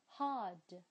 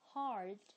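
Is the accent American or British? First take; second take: British; American. First: It is said in a British accent, with no r. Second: It is said in an American accent, with r. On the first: "刚刚我是用英式的这个啊读的" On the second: "用美式的发音来读一遍"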